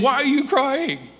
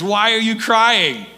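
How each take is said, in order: First: High, put-on playful question; comic gardener act. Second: Raised, louder, drawn-out question; mock questioning. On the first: Jesus mistaken for gardener asks Mary, comically innocent. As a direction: play innocent in a higher voice. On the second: Preacher retelling Jesus asking weeping Mary, pointedly playful. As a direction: ask it slowly with playful emphasis.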